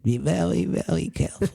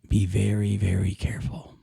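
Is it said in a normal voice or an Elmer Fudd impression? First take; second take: Elmer Fudd; normal voice. First: It is said in an Elmer Fudd impression. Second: It is said in his normal voice.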